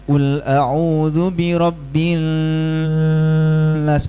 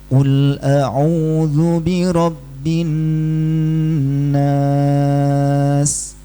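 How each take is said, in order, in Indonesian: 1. Huruf n dilewati tanpa dengung sengau. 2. Huruf n ditahan dengan dengung sengau. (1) "berarti bukan dengung, itu dia menyamarkan" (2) "tatkala gunnah kita coba contohnya"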